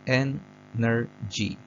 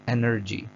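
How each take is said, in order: First: "एनर्जी" slowly in three separate beats; syllable by syllable. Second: Said in the usual way. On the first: Shown as a demonstration. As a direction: break "एनर्जी" into ए, नर, जी with pauses. ("एनर्जी" को धीरे, तीन हिस्सों में तोड़कर) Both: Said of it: "तीन इसमें bit of sounds आते हैं".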